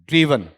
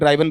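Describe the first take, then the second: First: The first vowel sounds like 'ee'. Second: The first vowel sounds like 'eye'. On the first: The speaker calls it right. "इस तरीके से आएगा" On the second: The speaker calls it wrong. "इसमें गलती करते हैं ड्राइवन बोलने की"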